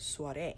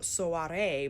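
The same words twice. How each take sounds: First: The O and A sounds blend together. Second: The O and A sounds are said separately. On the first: The speaker calls it right. "you kind of hear the O and the A at the same time" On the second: The speaker calls it wrong. "Not saying soiree"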